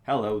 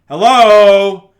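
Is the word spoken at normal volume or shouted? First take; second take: normal; shouted. First: The word is spoken at normal volume. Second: The word is shouted very loudly. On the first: "this is me at sixty-five percent" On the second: "If I shout, it still will"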